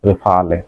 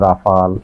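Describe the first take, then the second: First: It sounds like re-fa-le, ending in le. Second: It sounds like ra-fal, two syllables. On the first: The speaker calls it right. "ফরাসি উচ্চারণ হলো রেফালে" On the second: The speaker calls it wrong. "কেউ বলে রাফাল"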